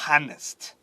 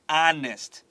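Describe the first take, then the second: First: The word begins with an audible h sound. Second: The word begins with a vowel, h silent. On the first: The speaker calls it wrong. "不是" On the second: The speaker calls it right. "它没有 H 的发音"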